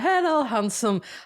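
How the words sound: It is spoken in an Irish accent. The speaker calls it right. "we should get an Irish person to say"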